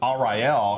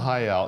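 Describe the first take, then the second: First: The R is sounded like an English R. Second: The R is sounded like an H. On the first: The speaker calls it wrong. "he pronounced it Ariel, and I was like, that doesn't look right" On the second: The speaker calls it right. "in Portuguese, the R's sort of sound like H's"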